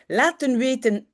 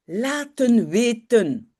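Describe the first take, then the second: First: Said in the usual way. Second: Laten weten said slowly, each syllable clear; slow Dutch demo. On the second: Shown as a demonstration. Teacher showing students the Dutch phrase, slow careful laten weten. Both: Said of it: "Attention pour le laten".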